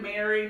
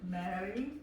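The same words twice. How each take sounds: First: The R is pronounced hard and harsh. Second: The R is pronounced softly rolled. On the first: The speaker calls it wrong. "it could sound very harsh if we do Mary" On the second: The speaker calls it right. "we kind of roll them"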